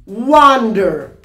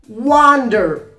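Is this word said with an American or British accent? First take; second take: American; American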